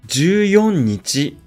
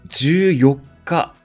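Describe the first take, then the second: First: The four is read with the ordinary number reading. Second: The four is read with the special day reading. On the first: The speaker calls it wrong. "14 日ではありません。" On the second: The speaker calls it right. "14 日です。"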